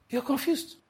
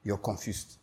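First: High mock exclaim. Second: Low mock muttering. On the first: Preacher teasing his congregation, high mock exclaim. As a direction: jump way up in pitch for the repeat. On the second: Preacher teasing his congregation, low quiet mutter. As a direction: drop low and quiet, mock a confused man. Preacher mocking a confused listener.

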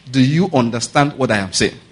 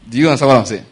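First: Measured, emphatic check on the listeners; deliberate repeat. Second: Said in the usual way. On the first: Real, not acted. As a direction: spell out "what I am saying" in full, unhurried.

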